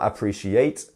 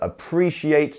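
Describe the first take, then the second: First: The stress is not on the second syllable. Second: The stress is on the second syllable. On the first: The speaker calls it wrong. "It's not appreciate or something like this" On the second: The speaker calls it right. "it is on the pre part of the word here"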